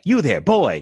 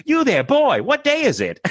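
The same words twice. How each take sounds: First: Scrooge calling down. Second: Yelling Scrooge. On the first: Scrooge calls down from his window, higher voice. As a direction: call out to the boy below. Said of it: "And he's like". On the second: She yells at her friend from the window, high mock Scrooge. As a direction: bellow out the window theatrically. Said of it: "just be like". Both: Retold or imitated.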